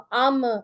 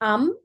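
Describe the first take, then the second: First: The final m is moved and released too much. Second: The final m is held still and stops. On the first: The speaker calls it wrong. "ज्यादा हिलाना नहीं है मीम को। अम, इम ऐसे नहीं पढ़ना" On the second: The speaker calls it right. "मीम पे रुक जाना है।"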